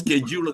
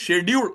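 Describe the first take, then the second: First: It has the American English pronunciation. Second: It has the Indian English pronunciation. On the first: This is how it is said here. "ഇവിടെ സ്കെഡ്യൂൾ എന്നാണ്" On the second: This is how it is said back home. "നമ്മുടെ അവിടെ ഷെഡ്യൂൾ എന്ന് പറയും"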